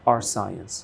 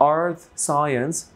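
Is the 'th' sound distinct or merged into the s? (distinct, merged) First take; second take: merged; distinct. First: The th sound merges into the s. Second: The th sound is kept before the s. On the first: "assimilation দিয়ে" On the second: "assimilation ছাড়া"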